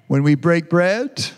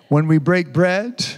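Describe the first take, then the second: Both takes have the same delivery.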